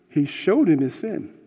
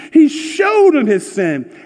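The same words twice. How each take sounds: First: Said in the usual way. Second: High, loud and slow, hammering the point; emphatic preaching. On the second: Shown as a demonstration. Pastor stresses the point to his church, loud and slow. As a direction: drive home that he showed him his sin.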